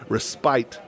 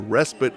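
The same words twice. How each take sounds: First: Respite is said in the British way. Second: Respite is said in a non-British way. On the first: The speaker calls it right. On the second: The speaker calls it wrong.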